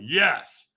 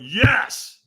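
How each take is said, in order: First: Said in the usual way. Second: YES louder and higher; stronger yes. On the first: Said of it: "Squeeze your fist and say yes". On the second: Retold or imitated. Firewalker answering trainer's demand, forceful yes. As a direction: put more force behind YES.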